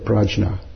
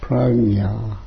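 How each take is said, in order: First: The middle consonant is a soft j sound. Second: The middle consonant is a g-n sound. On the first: This is how people commonly say it. The speaker calls it wrong. "So people say prajna" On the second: This is how it is actually pronounced. The speaker calls it right. "But it actually pronounced pragna, something like that"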